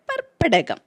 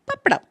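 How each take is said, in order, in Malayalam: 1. ഈ വാക്ക് നീട്ടിയാണ് പറയുന്നത്. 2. ഈ വാക്ക് ഒതുക്കിയാണ് പറയുന്നത്. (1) "പരത്തിപ്പറഞ്ഞാൽ" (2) "ഒതുക്കിപ്പറഞ്ഞാൽ"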